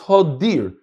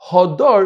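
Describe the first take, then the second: First: The last vowel is an 'i' sound. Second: The last vowel is an 'a' sound. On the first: "I can read it with a with a chirik under the dalet" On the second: "Instead of hadar"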